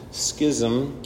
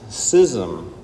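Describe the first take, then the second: First: The word begins with an sk sound. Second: The word begins with a plain s sound. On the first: "When have you ever heard of an English word with a silent CH? School" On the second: "When was the last time you cut a piece of paper with a pair of scissors? Scissors"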